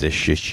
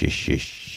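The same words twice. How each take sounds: First: Said in the usual way. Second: Breathy, softer whispered repeat; whispered echo of ish. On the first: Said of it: "repeats the word twice". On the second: Shown as a demonstration. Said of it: "repeats the word in a whisper".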